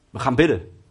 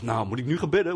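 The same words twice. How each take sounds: First: Low, louder, decided call to pray; the girlfriend settles it: we pray now; firm girlfriend. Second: Low, disbelieving question on bidden; incredulous thought. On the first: Girlfriend calming her angry boyfriend down, firm and decided. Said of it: "En Jessica zegt tegen mij". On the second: Angry son doubting his girlfriend's call to pray, incredulous. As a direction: scoff at the idea of praying right now. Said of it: "En ik dacht". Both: Retold or imitated.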